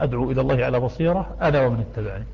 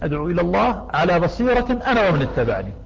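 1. يقع الوقف بعد 'ala basira'. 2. يقع الوقف بعد 'ila Allah'. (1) "منهم من وقف هنا" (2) "ومنهم من وقف فقال قل هذه سبيلي أدعو إلى الله"

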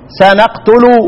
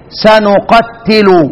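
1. صوت t مفرد، مع a في البداية. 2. صوت t مشدد، مع u في البداية.

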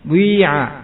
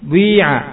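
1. Bunyi u yang membulat menyatu dengan vokal. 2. Bunyi u yang membulat menyatu dengan vokal.

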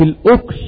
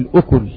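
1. لا تأتي بعد الحرف k أي حركة. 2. يأتي بعد الحرف k صوت u. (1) "بالإسكان" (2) "بالضم"

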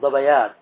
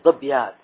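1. الحرف الجذري الثاني يحمل حركة قصيرة. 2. الحرف الجذري الثاني ساكن، بلا حركة. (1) "تقول ظبيات" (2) "ولا تقول ظبيات"

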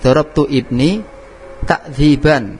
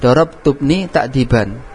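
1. Setiap kata dibaca terpisah, terputus-putus. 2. Kata-katanya tersambung dengan lancar satu sama lain.

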